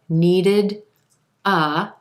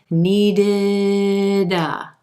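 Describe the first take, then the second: First: The two words are said separately. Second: The final D links into the next word. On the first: The speaker calls it wrong. "Instead of needed a, two distinct words" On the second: The speaker calls it right. "letting that D come right over in front of the word a"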